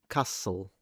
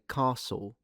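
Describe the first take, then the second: First: The s goes straight into the l. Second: The ending is a dark l like w. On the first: "I don't really say castle" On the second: "I say castle ... a dark L ... It's like a W really"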